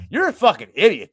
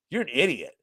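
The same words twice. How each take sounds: First: Louder, much higher retold taunt; in-his-face insult. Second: Said in the usual way. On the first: Manager in the customer's face, loud high insult. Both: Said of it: "I'm, like, in his face".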